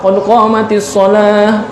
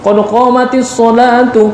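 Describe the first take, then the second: First: The last word stops on a final h sound. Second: The last word ends in a linked vowel ending. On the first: The phrase is stopped before the next one. The speaker calls it right. "Diwakaf afdalnya" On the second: The phrase is joined onto the next one. The speaker calls it wrong. "Kadang-kadang kita kan iqamah gitu"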